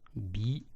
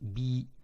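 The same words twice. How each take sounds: First: The vowel is short. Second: The vowel is long. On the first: "trois voyelles courtes" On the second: "Si on prolonge le son I avec la lettre Ya"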